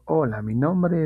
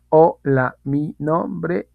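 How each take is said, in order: First: It flows smoothly without any breaks between words. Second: It is broken up with pauses between words. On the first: The speaker calls it right. "Ahí no hubo cortes, ahí hubo fluidez" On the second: The speaker calls it wrong. "fluida no es decir"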